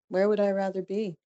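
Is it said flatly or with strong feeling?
flatly. It is said flatly, with little feeling.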